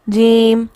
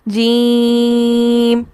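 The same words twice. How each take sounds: First: The vowel is said short, without lengthening. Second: The vowel is held long, with full lengthening. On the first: The speaker calls it wrong. "हम ऐसे नहीं पढ़ेंगे" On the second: The speaker calls it right. "जीम पर प्रॉपर मद होगी।"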